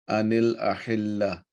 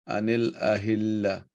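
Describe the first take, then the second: The two takes are said the same way.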